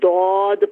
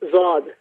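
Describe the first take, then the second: First: The word begins with a d-like sound. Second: The word begins with a z-like sound. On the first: This is how the letter is read in Arabic. The speaker calls it right. "अरबी में इसको दौद पढ़ा जाता है" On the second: This is how the letter is named in Urdu. The speaker calls it wrong. "इसको उर्दू में कहते हैं"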